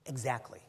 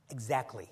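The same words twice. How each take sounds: The two takes are said the same way.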